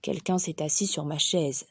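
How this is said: It is said in Papa Bear's big deep voice.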